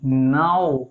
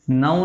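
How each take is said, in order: First: नाउ lower with a clean a-u glide; correct now. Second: नाउ said as the rejected version; wrong naau. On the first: Teacher giving the class the correct नाउ. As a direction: model the right नाउ, gliding now. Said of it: "क्या है?". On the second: Teacher contrasting the wrong नाउ with the right one. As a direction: show the mistaken नाउ first. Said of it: "नाउ नहीं". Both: Shown as a demonstration.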